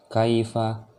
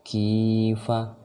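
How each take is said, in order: First: "kaifa" with a brief kai glide; short diphthong. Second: "Kifa" with the i held long; long vowel. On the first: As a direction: chant "kaifa" without drawing out "kai". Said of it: "jangan dibaca panjang". ("kaifa" tidak dibaca panjang) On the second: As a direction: stretch "Ki" high and steady, then short "fa". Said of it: "baca panjang dan ini". ("Kifa" dengan ki dipanjangkan) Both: Shown as a demonstration.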